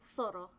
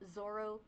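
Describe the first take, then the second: First: The name begins with an s sound. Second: The name begins with a z sound. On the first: This is the true Spanish pronunciation. The speaker calls it right. "but it's Soro" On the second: This is how most people read the name. The speaker calls it wrong. "everyone says my name as Zoro"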